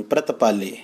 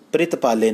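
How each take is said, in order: First: ਪ੍ਰਤਪਾਲੇ with a short a after pr, no i sound; ਪ੍ਰਤਪਾਲੇ said as pratpaale, careful and lower; ਪ੍ਰਤਪਾਲੇ with pra, not pri; correct pronunciation. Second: ਪ੍ਰਿਤਪਾਲੇ said with an i after pr, as pritpaale; ਪ੍ਰਿਤਪਾਲੇ as the common mistake, quick; ਪ੍ਰਿਤਪਾਲੇ with pri instead of pra; wrong pronunciation. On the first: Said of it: "ਉਚਾਰਨ ਹੈ ਪ੍ਰਤਪਾਲ". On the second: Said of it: "ਪ੍ਰਿਤਪਾਲੇ ਨਹੀਂ ਪੜ੍ਹਨਾ". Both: Shown as a demonstration.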